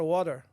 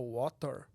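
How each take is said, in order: First: It is said with an American accent. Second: It is said with a British accent. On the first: "Mas chega aqui o cara fala water" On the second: "se você aprendeu com, com um sotaque inglês, então você vai falar water"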